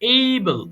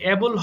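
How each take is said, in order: First: The first vowel sounds like the 'ay' in 'day'. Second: The first vowel sounds like the 'a' in 'cat'. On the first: The speaker calls it right. "এটার সঠিক উচ্চারণ হবে কিন্তু এইবল" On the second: The speaker calls it wrong. "অ্যাবল হবে না"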